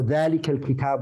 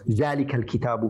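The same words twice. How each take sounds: First: The first word begins with a 'dh' sound. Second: The first word begins with a 'z' sound. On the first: The speaker calls it right. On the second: The speaker calls it wrong.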